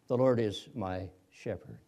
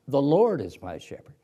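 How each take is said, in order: First: The stress is on the word shepherd. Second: The stress is on the word Lord.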